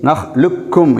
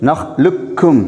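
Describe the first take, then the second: The two takes are said the same way.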